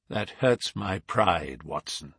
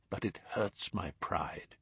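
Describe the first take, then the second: First: Slow and heavy, hurts drawn out; wounded pride. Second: Hurts my pride almost under his breath; crushed, much softer. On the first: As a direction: let hurts sink, slowly, stung. Holmes shaken by the death. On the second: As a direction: say it softly to yourself, defeated. Holmes repeats, more crushed. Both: A narrator's reading.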